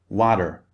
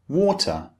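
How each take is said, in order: First: The middle consonant is a soft D-like sound. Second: The middle consonant is a clear, crisp T. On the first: "In American English, however, very often the T sound in water becomes a D sound" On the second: "in British English, we say water"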